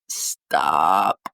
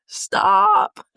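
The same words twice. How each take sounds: First: Very low, strained, cracking plea; choked-up stop. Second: High, louder, half-sobbing laugh; crying laugh. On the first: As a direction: push the word out through a tight throat. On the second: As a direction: break into a laugh-cry on the word. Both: Real, not acted. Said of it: "I'm, like, a little emo".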